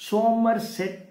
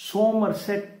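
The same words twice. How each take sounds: The two takes are said the same way.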